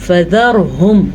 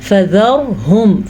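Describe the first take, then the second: The two takes are said the same way.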